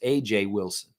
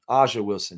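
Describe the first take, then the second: First: The first vowel has a Canadian sound. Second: The first vowel has a Southern US sound. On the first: "He says A J Wilson or something like that" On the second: "Like I say, A- Aja Wilson"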